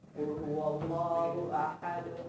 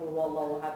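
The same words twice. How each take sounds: First: It is recited slowly with deep feeling. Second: It is recited casually, without feeling. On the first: The reciter is reflecting on the words. The speaker calls it right. "Kita harus menghayati" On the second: The reciter is not reflecting on the words. The speaker calls it wrong. "Itu namanya enggak menghayati"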